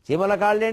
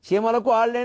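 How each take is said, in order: First: The sounds are split as 'chimala kaalle'. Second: The sounds are split as 'chimalaku aalle'. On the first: The ants' legs are fat, which seems contradictory. The speaker calls it wrong. "ఒకలా చదివితే విరోధం ఉన్నట్టు కనపడడం" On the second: The grains are fat compared to the ants. The speaker calls it right. "సరిగ్గా చదివితే విరోధం పోవడం"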